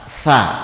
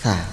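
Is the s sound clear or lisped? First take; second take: clear; lisped. First: The tongue stays behind the teeth, a clear s. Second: The tongue is bitten between the teeth, lisped. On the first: The speaker calls it right. "Lidah renggang dari ujung gigi depan atas" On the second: The speaker calls it wrong. "Jadi lidah itu seakan digigit"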